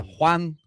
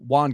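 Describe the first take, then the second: First: The name is pronounced the Spanish way. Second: The name is pronounced the English way.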